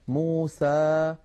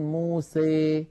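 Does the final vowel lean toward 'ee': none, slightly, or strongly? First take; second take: none; strongly. First: The final vowel is a plain, open a. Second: The final vowel leans strongly toward ee. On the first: "يخرج بفتح الفم فتحا وسطا" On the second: "يخلط صوت الألف بصوت الياء أكثر من هذا"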